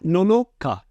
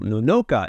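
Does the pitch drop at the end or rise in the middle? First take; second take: end drop; middle rise. First: Pitch stays flat, then drops on the last syllable. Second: Pitch rises up on the second syllable. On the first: The speaker calls it right. "a flat Nonoka and then you drop off at ka" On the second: The speaker calls it wrong. "that second no would be up on an incline"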